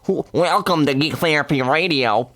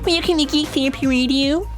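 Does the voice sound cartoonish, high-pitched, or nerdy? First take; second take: nerdy; high-pitched. First: A put-on, nerdy geek voice. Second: A put-on, unusually high-pitched voice. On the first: The speaker calls it right. "That's pretty good" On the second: The speaker calls it wrong. "Why is my voice so high as a geek?"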